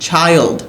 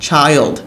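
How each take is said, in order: Both takes have the same delivery.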